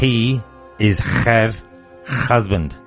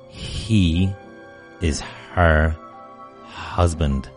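First: The h sounds are hard and forceful. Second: The h sounds are soft and breathy. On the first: The speaker calls it wrong. "I don't want you to say" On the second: The speaker calls it right. "I want you to soften the letter H"

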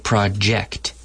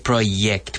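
First: The J is the English J sound. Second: The J is not the English J sound. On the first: The speaker calls it right. "we say project" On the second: The speaker calls it wrong. "Notice we don't say project"

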